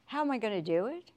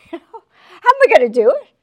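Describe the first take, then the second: First: Said in the usual way. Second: How am I gonna do it yelled high and loud; loud mock cry. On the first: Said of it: "repeated as a loud cry". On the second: Shown as a demonstration. Preacher voicing a worried believer, loud mock cry. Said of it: "repeated after a laugh".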